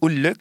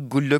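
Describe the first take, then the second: First: The word begins without a g sound. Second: The word begins with a g sound. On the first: This is the Egyptian form. "En Égypte, la même expression, ça aurait été « ha'ul-e »" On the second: This is the form heard earlier in the Maghreb. "« goul-le » qu'on a entendu jusqu'ici"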